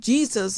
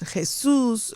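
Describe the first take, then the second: First: The name is pronounced the English way. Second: The name is pronounced the Spanish way.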